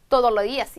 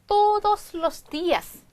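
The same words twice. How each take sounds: First: The s sounds are dropped in fast speech. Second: Every s sound is clearly pronounced.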